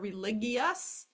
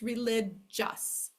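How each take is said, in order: First: The G is said as a hard G sound. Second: The G is said as a J sound. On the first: The speaker calls it wrong. "or religious" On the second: The speaker calls it right. "it's religious"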